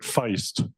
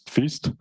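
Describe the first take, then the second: First: The vowel is an 'eye' sound. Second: The vowel is an 'ee' sound. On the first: "I was hoping that we would pronounce it Feist, because that's a Canadian singer" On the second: "so feast is also appropriate, so I'm happy that it's feast"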